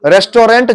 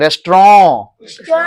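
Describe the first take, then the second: First: रेस्टोरेंट in three syllables, sounding the final "rent"; common pronunciation. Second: रेस्टोरेंट as "res-traw" with a nasal vowel, no t; nasal French-style ending. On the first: Teacher quotes how students often say it, common pronunciation. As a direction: say रेस्टोरेंट with a full hard t at the end. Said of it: "जैसे अक्सर आप बोलते हो". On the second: Teacher models the actual pronunciation, nasal French-style ending. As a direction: push the end of रेस्टोरेंट into the nose. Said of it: "ऐसे जोर दो थोड़ा नाक पे". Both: Shown as a demonstration.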